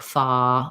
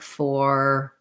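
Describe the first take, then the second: First: The final R is dropped, leaving an open vowel. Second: The final R sound is clearly pronounced. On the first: "other languages use non-rhotic R, so they would say like fa" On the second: "I'm always using that tight American er sound"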